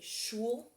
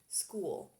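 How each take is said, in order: First: The word begins with an sh sound. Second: The word begins with an sk sound. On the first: The speaker calls it wrong. "You could say it like Megamind says it and say shul, but that's not right" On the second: The speaker calls it right. "S C H, makes a sk"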